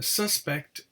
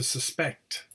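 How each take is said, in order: First: The stress is on the first syllable. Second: The stress is on the second syllable. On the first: It is used as a noun. "the noun, as you can see, is stressed on the first syllable" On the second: It is used as a verb. "the verb is stressed on the second syllable"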